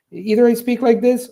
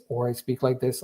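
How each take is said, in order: First: Raised, level pitch; high monotone. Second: Dropped, level pitch; low monotone. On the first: Teacher showing weird same-pitch speech, high monotone. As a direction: hold all the words up on one high note. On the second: Teacher showing weird same-pitch speech, low monotone. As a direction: keep the words down on one low note. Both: Shown as a demonstration.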